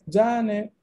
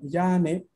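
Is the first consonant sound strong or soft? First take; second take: strong; soft. First: The first consonant is strong and hard. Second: The first consonant is soft and gentle. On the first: It means see you later. The speaker calls it right. "tiene un significado eso. Significa nos vemos" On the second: It sounds like calling someone by name. The speaker calls it wrong. "está entendiendo que estoy llamando a alguien de nombre yane"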